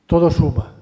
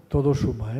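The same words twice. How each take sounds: First: Todo suma said much louder, punched on todo; emphatic. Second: Said in the usual way. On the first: Real, not acted. Lecturer to students, conceding a point with loud emphasis. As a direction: hammer it home with force on todo.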